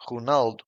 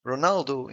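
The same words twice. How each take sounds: First: Ronaldo said the Portuguese way, with a throaty R and both O's shut; Portuguese pronunciation. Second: Said in the usual way. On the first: Shown as a demonstration. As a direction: say Ronaldo as "hoo-NAL-doo". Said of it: "in Portuguese sounds".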